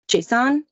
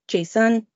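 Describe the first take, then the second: First: It is pronounced the way the data format is. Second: It is pronounced the way the personal name is. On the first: It refers to the data format. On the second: It refers to a person.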